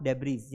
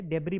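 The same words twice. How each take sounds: First: डेब्रीज with the final s voiced as z; wrong pronunciation. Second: डेब्री with a silent final s; correct pronunciation. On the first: Teacher showing the mistake, डेब्रीज with a z ending. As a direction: sound the last consonant in डेब्रीज. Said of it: "not डेब्रीज". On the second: Teacher giving the correct reading, डेब्री without the s. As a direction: end डेब्री on a clean "ree". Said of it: "इसे डेब्री पढ़ा जाता है". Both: Shown as a demonstration.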